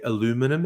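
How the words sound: It is said in an American way. The speaker calls it wrong. "They say aluminum"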